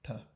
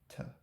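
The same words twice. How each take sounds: First: The t has no puff of breath after it. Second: The t has a puff of breath after it. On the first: "completely without aspiration" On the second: "has like a built-in aspiration"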